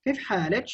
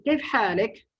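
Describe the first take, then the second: First: حالك said "halich" after كيف; feminine ending -ch. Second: حالك said "halik" after كيف; masculine ending -k. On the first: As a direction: end حالك on a ch sound. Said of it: "That is for the lady". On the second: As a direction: end حالك on a hard k. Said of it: "the one who is male". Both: Shown as a demonstration.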